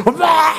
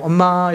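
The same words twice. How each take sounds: First: Put-on child's high call for mom. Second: Said in the usual way. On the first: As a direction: call for mom like an eager kid. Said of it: "이러고 막 달려". (엄마를 부르는 아이처럼 높게) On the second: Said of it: "이렇게 안 갑니다".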